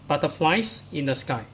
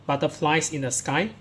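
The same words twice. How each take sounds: The two takes are said the same way.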